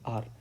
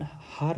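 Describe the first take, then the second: First: The word begins directly with a vowel. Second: The word begins with an h sound. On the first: The speaker calls it right. "इसको पढ़ते हैं अपन आर" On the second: The speaker calls it wrong. "इसको अपन हार नहीं पढ़ते हैं"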